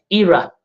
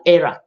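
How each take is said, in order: First: "era" said with a long ee start, EE-ra; pronunciation example. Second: "era" said with an open eh start, EH-ra; alternative pronunciation. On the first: Teacher showing viewers two ways to say a word, "era" as EE-ra. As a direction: say "era" as EE-rah. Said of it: "American words pronunciation". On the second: Teacher showing viewers the other way to say a word, "era" as EH-ra. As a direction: say "era" as EH-rah. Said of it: "and the British word pronunciation". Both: Shown as a demonstration.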